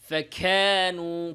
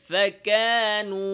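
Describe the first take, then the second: First: The k sound has a lot of escaping breath. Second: The k sound has only slight breath. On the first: The speaker calls it wrong. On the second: The speaker calls it right.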